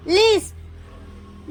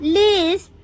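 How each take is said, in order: First: Slow whispered word. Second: Said in the usual way. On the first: Shown as a demonstration. Teacher showing learners the word Lisp, slow whisper. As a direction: whisper Lisp very slowly, stretched out.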